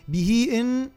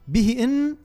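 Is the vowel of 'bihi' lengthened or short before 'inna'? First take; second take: lengthened; short. First: The vowel after 'bih' is lengthened. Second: The vowel after 'bih' is kept short. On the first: The speaker calls it right. "عندنا مد صلة به" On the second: The speaker calls it wrong. "دون مد صلة"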